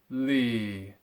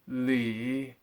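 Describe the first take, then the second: First: The pitch falls and does not rise again. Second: The pitch falls and then rises again. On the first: "just four tones" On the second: "As double four tones"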